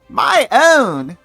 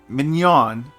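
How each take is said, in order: First: The name sounds like 'my own'. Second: The name sounds like 'min-yon'. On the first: This is the official pronunciation. "the correct pronunciation for Mother Mignon is my own" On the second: This is the pronunciation the speaker prefers. "Mother Mignon is going to be Mignon"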